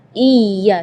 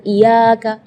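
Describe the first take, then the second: First: "Iya" with a forceful doubled y; pressed tasydid. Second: Iyaka with a single light y; no tasydid. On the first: Teacher contrasts with the wrong reading, ya pressed. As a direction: lean hard into the y of "Iya". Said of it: "jadi tekanan". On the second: Teacher shows the mistake, ya left single. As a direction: glide through the y of "iyaka" without doubling. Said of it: "iyaka berarti tidak ada tasdidnya". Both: Shown as a demonstration.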